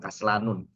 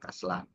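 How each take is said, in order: First: The word ends with an added '-un' syllable. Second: The word ends plainly on '-an' without '-un'. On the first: The speaker calls it wrong. "bukan dibaca kaslanun" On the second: The speaker calls it right. "ya kaslan"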